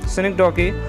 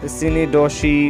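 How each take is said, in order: First: The word ends with a 'kee' sound. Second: The word ends with a 'shee' sound. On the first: The speaker calls it right. "cynic, uh, doki" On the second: The speaker calls it wrong. "don't say synedoshi"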